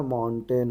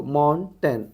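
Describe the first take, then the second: First: Said in the usual way. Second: mountain pulled apart into two syllables; broken into syllables. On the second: Shown as a demonstration. Teacher decodes a transcription, mountain syllable by syllable. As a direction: sound out mountain part by part.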